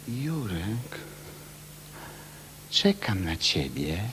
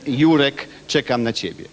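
First: The line is said suggestively, with a loaded pause. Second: The line is said plainly, without special meaning. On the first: It hints at an erotic invitation. The speaker calls it right. "Teraz ja jak przychodzę, przychodzę mówię" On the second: It is just a simple message about waiting. The speaker calls it wrong. "przychodzi jakiś młody aktor, prawda, z Katowic i mówi"

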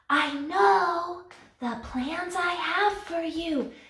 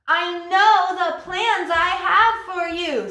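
First: It is said very quietly. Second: It is said very loudly.

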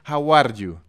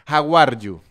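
Both takes have the same delivery.

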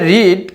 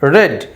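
First: The vowel is long, like 'reed'. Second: The vowel is short, like 'red'. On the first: It is the present form. "যদিও সেটা এটা রিড" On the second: It is the past form. "বানানগুলো একই রকম থাকবে কিন্তু বলার ভঙ্গিরা একটু আলাদা হবে"

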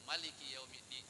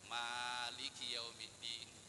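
First: The first vowel of Maliki is short. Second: The first vowel of Maliki is long. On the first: It means king of the Day of Judgment. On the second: It means owner of the Day of Judgment.

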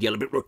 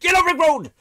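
First: It is said at normal, quiet volume. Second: It is said very loudly, almost shouted.

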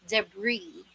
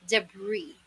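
Both takes have the same delivery.

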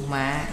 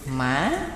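First: The pitch drops low and is cut short. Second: The pitch rises with a break in the voice. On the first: "Hạ thanh, thí dụ mạ, dấu nặng" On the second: "Khứ thanh, thí dụ mã, dấu ngã"

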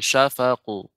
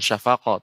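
First: The final qaf bounces thickly toward an 'u' sound. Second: The final qaf bounces into an open 'a' vowel. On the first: The speaker calls it right. "tapi syafaqu. Karena dia tebal... Tidak sampai ke huruf fathah" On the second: The speaker calls it wrong. "Bukan syafaqah"

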